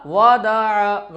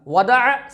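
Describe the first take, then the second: First: वदअ dragged out as waa-daa-aa; slow, drawn-out वदअ; wrongly stretched vowels. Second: वदअ in three short syllables; crisp, quick वदअ; short vowels, read quickly. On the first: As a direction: hold each vowel of वदअ long. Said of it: "गलत तरीका". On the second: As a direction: say वदअ briskly without stretching. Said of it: "सही तरीका". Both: Shown as a demonstration.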